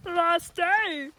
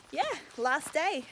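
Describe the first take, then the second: First: High, loud celebratory whoop; excited shout. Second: Mild cheer. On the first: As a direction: call it out like a cheer. Cheering the final day, repeated louder. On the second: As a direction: say it brightly, at talking volume. Cheering the final day, first take. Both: Real, not acted.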